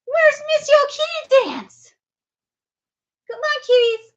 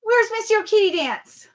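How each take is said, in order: First: Higher, slower sing-song call to a cat. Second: Said in the usual way. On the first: Real, not acted. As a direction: lift the call up high and slow. Calling the cat twice.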